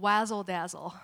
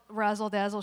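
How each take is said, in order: First: The first word begins with a W sound. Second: The first word begins with an R sound. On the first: The speaker calls it wrong. "she calls it wazzle dazzle" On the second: The speaker calls it right. "she doesn't call it razzle dazzle"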